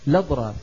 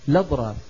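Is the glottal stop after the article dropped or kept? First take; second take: dropped; dropped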